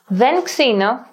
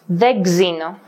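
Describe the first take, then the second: First: The n is kept before an x sound. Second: The n is dropped before a gz sound.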